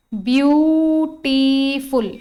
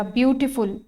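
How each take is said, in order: First: ब्यूटीफुल stretched very slowly as ब्यू-टी-फुल; syllable by syllable. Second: Said in the usual way. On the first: Shown as a demonstration. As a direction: draw out each vowel sound of ब्यूटीफुल. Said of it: "एक से ज्यादा vowel sound है".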